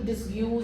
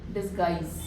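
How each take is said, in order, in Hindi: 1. यह 'dis-yooz' जैसा बोला जाता है, स्पेलिंग के अनुसार। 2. यह 'dis-guys' जैसा बोला जाता है, कठोर g के साथ। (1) "इसको डिसयूज और ऐसे मत मत बोलना" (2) "डिसगाइज है ना"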